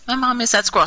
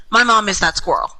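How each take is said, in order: First: Mom hit higher; weight on mom; stress on mom. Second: My punched first; weight on my; stress on my. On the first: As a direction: lean on the word mom. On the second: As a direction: lean on the word my. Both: Shown as a demonstration.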